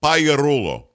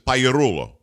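First: The 'gli' sounds like a Y. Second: The 'gli' sounds like a Y.

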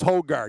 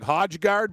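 First: The J sound is silent in the name. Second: The J sound is pronounced in the name. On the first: The speaker calls it right. "but it's Højgaard" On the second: The speaker calls it wrong. "on the FanDuel site, it'll look like Højgaard"

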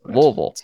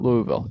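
First: It is said in a local Louisville accent. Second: It is said in an outsider pronunciation. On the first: The speaker calls it right. "You have to say it with the Louisville accent" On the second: The speaker calls it wrong. "It's not Louisville"

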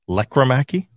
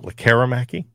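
First: The stress is on the first syllable. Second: The stress is on a later syllable. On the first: The speaker calls it right. "Accent on the first syllable now is what it seems to be" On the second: The speaker calls it wrong.

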